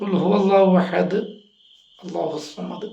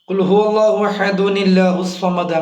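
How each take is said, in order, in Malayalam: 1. ahad ഒന്നും ചേർക്കാതെ അവസാനിച്ച്, Allahu ന് മുമ്പ് നിർത്തുന്നു. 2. ahad -unil ചേർത്ത് Allahu വിലേക്ക് നീണ്ടുപോകുന്നു.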